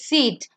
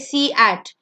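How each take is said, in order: First: Only the first vowel is sounded, one syllable. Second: Both vowels are sounded, making two syllables. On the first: The speaker calls it right. "It's seat" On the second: The speaker calls it wrong. "You don't say see at"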